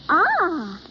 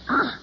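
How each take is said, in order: First: It sounds pleased. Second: It sounds disgusted.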